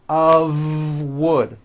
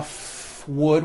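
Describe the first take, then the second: First: The word 'of' ends in a voiced V. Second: The word 'of' ends in a voiceless F. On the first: The speaker calls it right. "It's all voiced and it's all connected. It's made of wood, like that" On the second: The speaker calls it wrong. "It's not a f wood with an unvoiced F"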